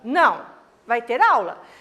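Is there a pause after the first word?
yes. It is said with a pause after não.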